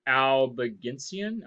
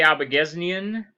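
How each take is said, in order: First: "Albigensian" said slowly as al-bih-JEN-see-an; slowly fix "Albigensian" to al-bih-JEN-see-an; retry "Albigensian" with a clear JEN-see-an; careful correction. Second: "Albigensian" said al-buh-GEZ-nee-an, with a z sound; tentative "Albigensian", ending zee-an; first stab at "Albigensian" as al-buh-GEZ-nee-an; unsure first try. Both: Shown as a demonstration. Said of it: "did I say it right?".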